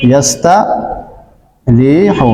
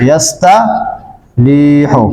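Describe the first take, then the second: First: ইয়াস্তারিহু stretched even more, syllable by syllable; very slow demo. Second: ইয়াস্তারিহু drawn out slowly and low; slow demo. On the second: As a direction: draw out ইয়াস্তারিহু for the class. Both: Shown as a demonstration. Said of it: "যেমন দেখেন".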